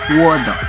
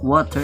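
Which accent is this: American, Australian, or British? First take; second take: Australian; American. First: It is said in an Australian accent, T flapped. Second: It is said in an American English accent. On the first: "Australians tend to flap their T's and D's... it will become water" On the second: "what water is for the American English"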